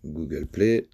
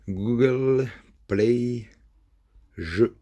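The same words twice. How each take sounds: First: Said in the usual way. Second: Slow, stretched, higher Google Play; drawn-out. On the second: Shown as a demonstration. Typing it in slowly.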